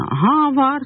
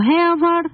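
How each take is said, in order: First: The first word has an 'ah' vowel. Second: The first word has an 'eh' vowel. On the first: This is the everyday colloquial style. "В разговорном иврите скажут, конечно, «га авар»" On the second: This is the formal style used by announcers. "то вы говорите «нахалат гэ авар»"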